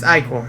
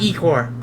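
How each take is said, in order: First: The word begins with an 'eye' sound. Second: The word begins with an 'ee' sound. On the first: The speaker calls it right. "It's eye core" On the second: The speaker calls it wrong. "It's not e core"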